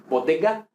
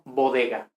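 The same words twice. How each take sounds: First: "bodega" with hard stopped D and G, almost doubled; firm Latin stops in "bodega"; strong plosive consonants. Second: Said in the usual way. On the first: Shown as a demonstration. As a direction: close fully on each consonant of "bodega". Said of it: "como muy fuerte o lo que sea". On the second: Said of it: "no bodega".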